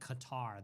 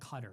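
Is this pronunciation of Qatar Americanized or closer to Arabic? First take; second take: Americanized; Arabic-like. First: It is said with an Americanized pronunciation. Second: It is said closer to the Arabic pronunciation. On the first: The speaker calls it wrong. "not like Qatar. That's an Americanized thing" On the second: The speaker calls it right. "it's pronounced like Qatar"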